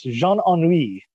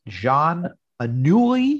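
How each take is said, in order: First: "Jean Ennui" said assuredly as French, ending in "wee"; corrected French pronunciation. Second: "Jean Anouilh" drawn out slowly in careful French; tentative French pronunciation. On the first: Co-host correcting the host's attempt, assured French pronunciation. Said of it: "Very close, very close". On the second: Host attempting a French playwright's name, tentative pronunciation. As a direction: try "Jean Anouilh" very slowly, feeling out each syllable. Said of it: "I'm gonna try to pronounce this". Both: Shown as a demonstration.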